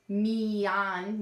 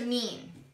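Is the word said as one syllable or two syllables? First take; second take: two; one. First: The word is split into two syllables. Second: The word is said as one syllable. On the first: The speaker calls it wrong. "me on, no" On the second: The speaker calls it right. "You don't even say the A"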